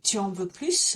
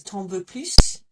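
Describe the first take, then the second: First: Both words 'tu en' are said in full. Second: 'Tu en' is contracted to a single 't'en'.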